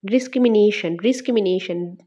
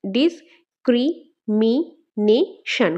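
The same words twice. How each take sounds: First: Said in the usual way. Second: ডিসক্রিমিনেশন in five slow beats, ডিস-ক্রি-মি-নে-শন; split into syllables. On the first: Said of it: "ওয়ার্ডটাকে ভাঙলে আমরা পাঁচটা syllable পাই". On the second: Shown as a demonstration. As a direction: pause after every syllable of ডিসক্রিমিনেশন. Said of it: "কয়টা হচ্ছে?". (ডিসক্রিমিনেশন পাঁচ ভাগে থেমে থেমে, খুব ধীরে)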